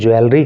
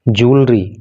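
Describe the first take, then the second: First: The word begins with a 'jwe' sound. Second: The word begins with a plain 'joo' sound. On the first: The speaker calls it wrong. "ज्वेलरी कहना गलत है" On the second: The speaker calls it right. "उच्चारण होता है वो जूलरी होता है"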